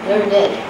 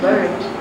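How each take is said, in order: First: The ending is said as a separate syllable. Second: The ending joins the word in one syllable. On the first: It describes a person who knows a lot. "in cases like learned ed, right? He is learned. There it's a noun" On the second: It is the past tense of the verb. "learned is the past tense of the verb"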